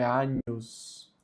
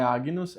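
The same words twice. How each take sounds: First: "Agnus" drawn out as "a-nhus". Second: "Agnus" with a hard g, "a-gui-nus"; wrong gn pronunciation. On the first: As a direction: slowly soften "Agnus" to "Anyus". ("Agnus" devagar, com som de nh, "ânhus") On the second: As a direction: sound g and n separately in "Agnus". ("Agnus" com g duro, "águinus") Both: Shown as a demonstration. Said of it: "que não é Agnus".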